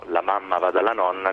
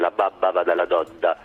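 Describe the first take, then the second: First: The m and n sounds are clearly nasal. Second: The m and n sounds come out as b and d.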